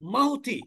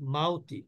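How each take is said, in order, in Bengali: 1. স্বরের গ্লাইডটি শক্ত ও হঠাৎ করে উচ্চারণ করা হয়। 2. স্বরের গ্লাইডটি নরম ও মসৃণভাবে উচ্চারণ করা হয়। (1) "আমি যদি এটাকে হার্ডলি পড়ি" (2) "সফটলি উচ্চারণ করলাম"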